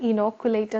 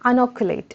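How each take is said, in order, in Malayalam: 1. വാക്ക് 'ih' സ്വരത്തിൽ തുടങ്ങുന്നു. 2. വാക്ക് 'uh' സ്വരത്തിൽ തുടങ്ങുന്നു. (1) "നമ്മൾ സാധാരണ ഇനോക്കുലേറ്റ് എന്ന് പറഞ്ഞ് പ്രൊനൗൺസ് ചെയ്യും, അത് തെറ്റാണ്" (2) "അനോക്കുലേറ്റ് എന്നാണ് ഇതിനെ പ്രൊനൗൺസ് ചെയ്യേണ്ടത്"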